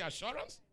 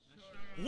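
First: Said in the usual way. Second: Whisper. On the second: Shown as a demonstration. Repeats the word in a whisper.

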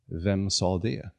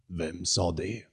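First: Slow, hushed and frightened; trembling fear. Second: The condor mimics it back, softer; mocking echo. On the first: Acted. Jonathan asking the hidden voice who spoke, slowly and scared. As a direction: ask it as if scared of the answer. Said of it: "med darrande läppar frågade han". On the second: The condor mimicking Jonathan's frightened question, soft and mocking. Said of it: "härmade rösten".

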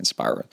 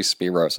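First: Spiros said SPY-ros; own pronunciation. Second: Spiros said SPEE-ros; likely correct pronunciation. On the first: Podcaster keeping his own reading of a donor's name, Spiros as SPY-ros. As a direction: say Spiros with an "eye" vowel. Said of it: "I'm just saying Spiros". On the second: Podcaster correcting himself on a donor's name, Spiros as SPEE-ros. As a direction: say Spiros with a long "ee". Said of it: "it's probably Spiros". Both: Shown as a demonstration.

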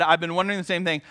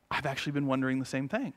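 First: Said in the usual way. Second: Soft confession. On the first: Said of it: "when she said". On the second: Retold or imitated. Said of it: "she looked at me and said".

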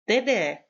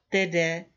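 First: "Tede" called out louder, sharp fall; mother shouting "Tede" at her son on the call; shouting his name. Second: Said in the usual way. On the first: A narrator's reading. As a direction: snap "Tede" at him to cut him off. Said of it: "proč na něj křičím".

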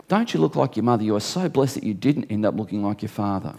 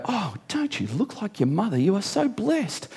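First: Said in the usual way. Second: High, soft gushing coo; gushing admirer. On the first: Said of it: "finish that sentence, fella". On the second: Retold or imitated. Admirer telling preacher's daughter she looks like mother, gushing. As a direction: coo over someone's daughter, higher and softer. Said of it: "they see our, uh, one of our daughters and they go".

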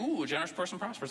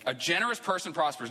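First: Mock greedy reading. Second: Said in the usual way. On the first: Preacher mocks reading the verse for riches, greedy and sly. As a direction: read "a generous person prospers" like someone hoping to get rich. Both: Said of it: "you can take this and say".

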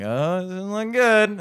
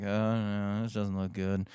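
First: High, drawn-out comic worry; louder, slow mock dismay; mock alarm. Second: Low, soft aside to himself; quietly uneasy, sinking in pitch; muttered misgiving. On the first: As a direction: stretch it out in a rising wail. Mounting alarm, retold. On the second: Retold or imitated. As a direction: say it under your breath. Muttered worry at first bad sign.

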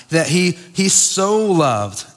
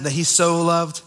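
First: "so" drawn out slowly and leaned on; stress on so. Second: Said in the usual way. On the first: Shown as a demonstration. Preacher stressing God's love to the church, slow emphatic "so". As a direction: lean hard on "so", stretching it out. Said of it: "This is emphatic". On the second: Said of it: "Does y'all's Bible say that?".

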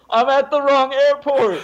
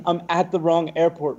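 First: High, loud frantic shout to the crowd; panicked yell. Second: Said in the usual way. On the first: Retold or imitated. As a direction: bellow it so everyone clears the way. Yelling from top of escalator.

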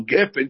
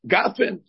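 First: Said in the usual way. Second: "gafen" as GAH-fen, higher pitched; pausal vowel form. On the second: Shown as a demonstration. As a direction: open AH in the first syllable of "gafen". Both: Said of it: "so gefen should become".

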